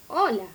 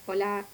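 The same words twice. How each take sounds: First: The melody sounds like a typical greeting. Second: The melody does not sound like a greeting. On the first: The speaker calls it right. "digo hola, ¿sí? Que es el saludo" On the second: The speaker calls it wrong. "Yo no digo hola"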